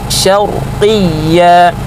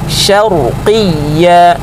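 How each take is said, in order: No difference in how they are said.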